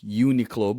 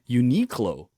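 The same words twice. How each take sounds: First: The start does not sound like 'unique'. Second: The start sounds like the word 'unique'. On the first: "For me, it's Uniqlo" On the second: "there's some people who pronounce it Uniqlo"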